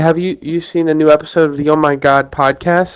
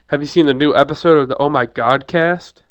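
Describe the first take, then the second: First: It is said nervously, with stammering. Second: It is said confidently, without stammering.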